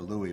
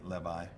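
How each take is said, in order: First: The name is said with a 'w' sound, like 'Lewis'. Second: The name is said with a 'v' sound, like 'Levi'. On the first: The speaker calls it wrong. "I always say Louis" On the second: The speaker calls it right. "I think you should pronounce it Levi"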